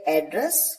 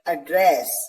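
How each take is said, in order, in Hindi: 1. ज़ोर पहले अक्षर पर है। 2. ज़ोर दूसरे अक्षर पर है। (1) "एज अ नाउन यूज किया जाएगा तो आप इसे प्रोनाउंस करेंगे address" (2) "as a verb pronounce किया जाएगा तो इसे प्रोनाउंस करेंगे एड्रेस"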